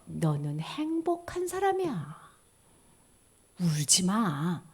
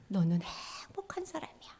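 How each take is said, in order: First: Tender reading. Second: Whisper. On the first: Blessing read aloud, first take. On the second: Blessing repeated, second take. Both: Shown as a demonstration.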